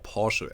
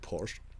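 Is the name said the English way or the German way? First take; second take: German; English. First: It is said the German way. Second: It is said the English way.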